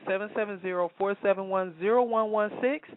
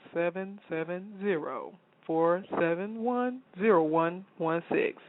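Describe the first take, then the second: First: The number is read off quickly. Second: The number is read out more slowly. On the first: The speaker calls it wrong. "if I said that too fast" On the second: The speaker calls it right. "let me say it one more time"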